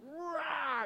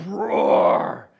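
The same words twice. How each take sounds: First: High, weak little lion-cub roar; kitten-like roar. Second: Loud, low lion roar; big guttural roar. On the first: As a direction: try to roar, out comes a kitty. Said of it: "that sounds like a little kitty". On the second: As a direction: roar from the throat like a huge father lion. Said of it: "you hear this big guttural". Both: Acted.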